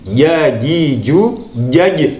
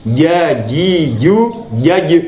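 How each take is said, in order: Both takes have the same delivery.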